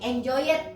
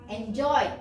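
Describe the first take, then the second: First: The ending is pronounced as a separate extra syllable. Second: The ending is clipped short with no extra syllable. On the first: The speaker calls it wrong. "tidak kayak kita baca enjoy jadi enjoy it, enggak ya" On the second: The speaker calls it right. "hanya ada uh, ya kayak semacam rem"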